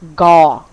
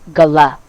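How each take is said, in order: First: G and L blend with no vowel between. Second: A vowel sound separates the G and L. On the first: The speaker calls it right. "we pronounce it as gaw" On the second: The speaker calls it wrong. "not gala"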